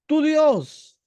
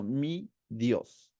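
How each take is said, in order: First: Loud, high-pitched accusation; complaining. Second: Softer, low, deliberate and owning; intimate. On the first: The people complaining to Moses, loud reproach. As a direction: hurl it as a grievance, pushing God away. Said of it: "el pueblo venía y se quejaba con Moisés". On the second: Caleb doing the opposite of the complainers, quietly intimate. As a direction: say it quietly as personal trust. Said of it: "Caleb está haciendo todo lo contrario". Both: Retold or imitated.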